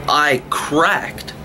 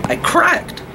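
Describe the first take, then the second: First: Said in the usual way. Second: High-pitched cracking. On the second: Real, not acted. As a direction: voice leaps way up high. Venting, repeats the line two ways.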